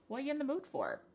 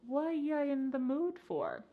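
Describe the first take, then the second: First: The phrase is said very fast. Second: The phrase is said slowly. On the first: The speaker calls it right. "say this with me really fast" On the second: The speaker calls it wrong. "You don't want to say this reduction slowly"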